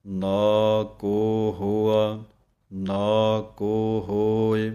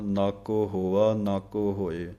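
First: ਨਾ ਕੋ sung slowly and louder; chanted. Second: ਨਾ ਕੋ run together quickly as one word; wrong run-together. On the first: Teacher chanting the correct separated ਨਾ ਕੋ. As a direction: chant it slowly with ਕੋ set apart. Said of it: "ਕੋ ਵੱਖਰਾ ਬੋਲਣਾ ਹੈ". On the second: Teacher showing the wrong merged reading. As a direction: blur NACO together, the common mistake. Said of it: "ਇਹ ਗਲਤ ਹੈ". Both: Shown as a demonstration.

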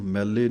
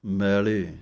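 First: ਮੈਲੇ squeezed short with a doubled l; quick mel-le for ਮੈਲੇ; wrong pronunciation. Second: ਮੈਲੇ with a long first vowel and single l; slow, drawn-out first syllable in ਮੈਲੇ; correct pronunciation. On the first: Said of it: "ਇਹਨੂੰ ਮੈਲੇ ਨਹੀਂ ਕਹਿਣਾ". (ਮੈਲੇ ਨੂੰ ਅੱਧਕ ਵਾਂਗ ਦਬਾ ਕੇ) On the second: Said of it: "ਇਸ ਤਰ੍ਹਾਂ ਬੋਲਣਾ ਹੈ". (ਮੈਲੇ ਨੂੰ ਲਮਕਾ ਕੇ, ਪੋਲਾ) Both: Shown as a demonstration.

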